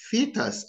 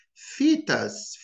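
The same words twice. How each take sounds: First: "fetus" as a British FEE-tuss; British pronunciation. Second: "fetus" with an American flapped t; American pronunciation. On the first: Teacher contrasting the accents, British take. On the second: Teacher contrasting the accents, American take. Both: Shown as a demonstration. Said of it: "and notice the difference".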